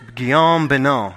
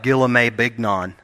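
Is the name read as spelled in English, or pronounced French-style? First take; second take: French-style; as spelled. First: The name is said with French pronunciation. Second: The name is read out as English spelling. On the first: The speaker calls it right. "is how it's said" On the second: The speaker calls it wrong. "It looks like"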